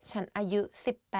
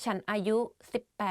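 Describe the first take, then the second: No difference in how they are said.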